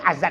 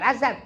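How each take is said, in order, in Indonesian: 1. Diucapkan dengan cara lokal yang santai. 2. Diucapkan dengan artikulasi bahasa Arab yang fasih. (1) "Bukan azan" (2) "pakai bahasa yang fasih"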